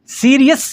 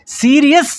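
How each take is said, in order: Both takes have the same delivery.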